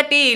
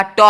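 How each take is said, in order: First: टी as "tee", with a long ee; higher, firm टी; letter name. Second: ट as "taw", not "tee"; bare T sound with an open vowel, ट; short open syllable ट; letter's phonetic sound. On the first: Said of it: "sound ठीक है टी". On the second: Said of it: "उच्चारण जब देखने जाओगे तो आएगा ट". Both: Shown as a demonstration.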